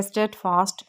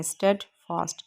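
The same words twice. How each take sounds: First: Said in the usual way. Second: स्टेडफास्ट parted as "sted... fast"; broken into parts. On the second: Shown as a demonstration. Teacher modelling pronunciation, स्टेडफास्ट split into two parts. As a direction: say स्टेडफास्ट with a gap before "fast". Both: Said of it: "ये इसकी हमने pronunciation की है".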